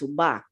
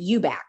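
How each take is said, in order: First: The surname is said the original Spanish way. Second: The surname is said the anglicized family way. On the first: The speaker calls it right. "you're pronouncing it wrong. It's Ubach" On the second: The speaker calls it wrong. "we pronounced it Eubach"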